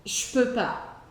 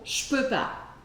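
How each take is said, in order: The two takes are said the same way.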